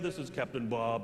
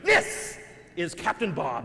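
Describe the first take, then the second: First: The voice is flat and monotone. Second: The voice is loud and hyped-up like an announcer. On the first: "he sounds very, you know, monotone at first" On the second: "he does this impersonation of a monster truck rally announcer"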